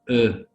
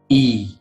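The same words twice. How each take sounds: First: The vowel is said the French way. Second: The vowel is said the English way. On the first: "but in French it's E" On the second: "In English it's E"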